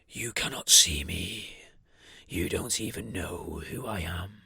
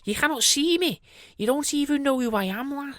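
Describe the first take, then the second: First: Deep, slow, menacing; low slow sinister entity. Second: High sing-song friendly voice; chirpy high and sweet; nicer voice. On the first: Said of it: "in that such of a sinister voice". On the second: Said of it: "in a nicer voice". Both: Acted.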